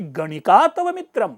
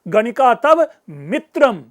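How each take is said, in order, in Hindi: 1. शब्द 'ganika' पर बलाघात है। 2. शब्द 'mitram' पर बलाघात है। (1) "गणिका पे स्ट्रेस दूंगा" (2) "गणिका तुम्हारा मित्र है, शत्रु नहीं"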